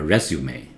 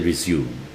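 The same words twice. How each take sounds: First: The word is pronounced the French-derived way. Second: The word is pronounced the plain English way. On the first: It names a document about your work history. The speaker calls it right. "This one is taken from French" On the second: It means to continue after a pause. The speaker calls it wrong. "So please do not say resume"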